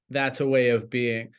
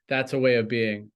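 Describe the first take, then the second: No difference in how they are said.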